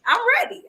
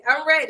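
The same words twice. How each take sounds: First: Excited. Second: Said in the usual way. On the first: Real, not acted. Hyped answer to greeting.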